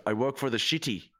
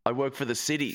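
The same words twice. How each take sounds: First: "city" lisped as "shitty"; mock-Dutch "city" with a slushy sh. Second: Said in the usual way. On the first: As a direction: lisp the s in "city" into a sh sound. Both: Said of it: "if you just add the lisp".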